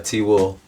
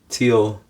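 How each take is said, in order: First: The second syllable is a full 'will'. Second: The second syllable is reduced to 'oh'. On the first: "T will becomes T O" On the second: "T will becomes T O"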